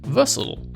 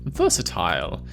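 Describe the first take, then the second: First: American accent, the ending shortened to an ul sound. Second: British accent, the ending said with a full il sound. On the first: "In America" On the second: "In Britain"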